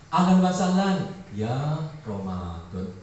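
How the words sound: The phrase is said in a disappointed, reluctant tone. Unhappy that Ramadan has come again. "Yang kedua kesan psikologisnya gimana? Kecewa"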